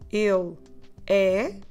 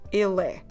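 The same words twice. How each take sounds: First: The two words are said separately. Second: The two words run together as one. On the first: "instead of saying il é" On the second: "Let's try to run the words il and the word é together"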